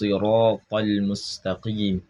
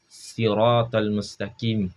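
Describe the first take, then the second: First: The first s is a heavy, emphatic sound. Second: The first s is a plain, light sound. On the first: The speaker calls it right. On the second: The speaker calls it wrong.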